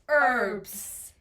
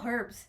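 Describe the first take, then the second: First: It is pronounced the way locals say it here. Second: It is pronounced the way it's said in Nepal. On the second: "you just say like"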